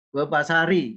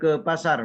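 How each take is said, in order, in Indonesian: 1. Kata itu berakhir dengan vokal i tambahan. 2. Kata itu berakhir dengan bunyi r. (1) "Tidak bisa juga" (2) "Mengapa dibaca sukun roknya?"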